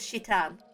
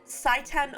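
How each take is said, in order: First: The name begins with a 'shi' sound. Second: The name begins with a 'sai' sound.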